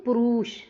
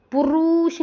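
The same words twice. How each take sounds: First: पुरुष with a shorter ru, evenly pitched; correct pronunciation. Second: पुरुष as a drawn-out पुरूष; exaggerated long vowel. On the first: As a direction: say पुरुष without the exaggerated roo. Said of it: "हम बोलते हैं पुरुष". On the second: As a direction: overdo the roo in पुरुष as the error. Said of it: "पुरुष नहीं बोलते हम". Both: Shown as a demonstration.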